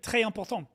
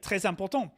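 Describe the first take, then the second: First: The s of très is dropped entirely. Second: The s of très links into important. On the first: "They drop a lot of the the is it liaison" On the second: "I learned to say things like"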